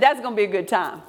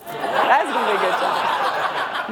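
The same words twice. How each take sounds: First: Quick remark. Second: Amused, drawn out. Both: Retold or imitated. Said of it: "I said".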